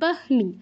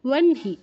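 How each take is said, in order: First: The h sound comes before the n. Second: The h sound comes after the n. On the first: "এখানে হওয়ার কথা ছিল বহনি" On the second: "কিন্তু হচ্ছে ওয়ানহি"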